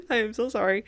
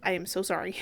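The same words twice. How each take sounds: First: Laughing, nearly crying apology. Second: Said in the usual way. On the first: Real, not acted. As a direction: giggle through the apology.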